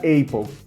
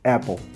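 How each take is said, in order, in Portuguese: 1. A primeira vogal é longa, como em 'ape'. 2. A primeira vogal é curta, como em 'cat'. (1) "se tirasse um P, ficaria Apple" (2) "como eu tenho dois P's, é como se ele bloqueasse a função do E no final"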